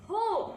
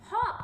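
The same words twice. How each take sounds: First: "हो" as in hope, with a long "oh"; long O sound. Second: "हॉप" with short "o" as in pot; short O sound. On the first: Teacher contrasts words without and with E, long sound. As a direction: hold the round "oh" in "हो". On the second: Teacher contrasts words without and with E, short sound. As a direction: keep the vowel brief in "हॉप". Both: Shown as a demonstration. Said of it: "how the sound changes by adding E".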